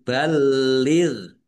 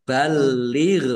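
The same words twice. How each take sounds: First: Balir with held l and unbounced final ghain. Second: Balir with a bounce on the final ghain; wrongly bounced ghain in balir. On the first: Teacher corrects the mistake, balir without bouncing the ghain. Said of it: "Tapi balir". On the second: Teacher demonstrates the mistake to avoid, ghain bounced in balir. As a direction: bounce the last consonant of balir, louder. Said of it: "jangan dibaca". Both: Shown as a demonstration.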